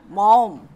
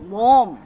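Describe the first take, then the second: Both takes have the same delivery.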